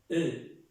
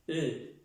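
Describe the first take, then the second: No difference in how they are said.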